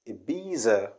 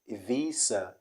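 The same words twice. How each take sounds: First: The middle consonant is a buzzing z sound. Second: The middle consonant is a hissing s sound. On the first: The speaker calls it wrong. "people do say Ibiza" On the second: The speaker calls it right. "Ibiza means the Z changes to S"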